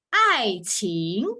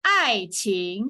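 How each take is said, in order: First: "爱情" falling then rising; 示范爱情的声调; tone demo. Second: "爱情" drawn out slowly, falling then rising; 慢慢示范爱情; slow tone demo. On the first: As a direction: model "爱情" clearly. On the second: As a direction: stretch "爱情" slowly. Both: Shown as a demonstration. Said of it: "the first word is 第四声".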